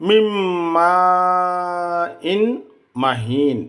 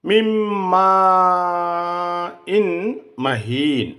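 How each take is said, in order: No difference in how they are said.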